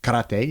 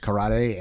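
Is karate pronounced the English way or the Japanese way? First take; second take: Japanese; English. First: Karate is pronounced the original Japanese way. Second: Karate is pronounced the common English way. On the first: The speaker calls it right. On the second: The speaker calls it wrong.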